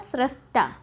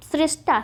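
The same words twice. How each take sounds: First: सृष्टा as "srashta"; सृष्टा, first syllable "sra"; correct form shown. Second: सृष्टा as "srishta"; सृष्टा, first syllable "sri"; wrong form shown. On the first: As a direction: say सृष्टा with short a after sr. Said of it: "क्या होता है?". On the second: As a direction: say सृष्टा with i after sr. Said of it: "सृष्टा नहीं होता है". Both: Shown as a demonstration.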